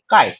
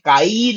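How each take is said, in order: First: The word is said with lowered volume. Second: The word is said fully and prominently. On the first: The speaker calls it right. "हम नॉर्मली बोलेंगे काय" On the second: The speaker calls it wrong. "काई नहीं बोलेंगे"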